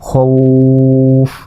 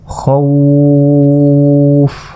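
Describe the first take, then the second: First: The vowel is stretched for one count. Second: The vowel is stretched for three counts. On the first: "অথবা আমি এক আলিফও টান দিতে পারি" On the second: "তিন আলিফ পরিমাণ টেনে পড়লাম"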